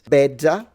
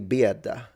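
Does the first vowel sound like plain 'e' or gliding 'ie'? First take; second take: plain e; gliding ie. First: The first vowel is a plain e sound. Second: The first vowel glides as an ie sound. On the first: "one way" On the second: "In Palermo, I would say Bieda, I would add a E in there"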